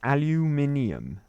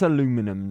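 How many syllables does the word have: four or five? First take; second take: five; four. First: The word is said with five syllables. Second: The word is said with four syllables. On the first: The speaker calls it right. "It's aluminium. That's how it's said" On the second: The speaker calls it wrong. "None of this aluminum nonsense"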